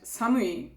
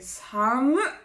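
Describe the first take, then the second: First: The word is said in its full form. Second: The word is said with its ending cut off. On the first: It is cold. "samui means cold" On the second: It is extremely cold. "you can say samu, like it's fucking cold"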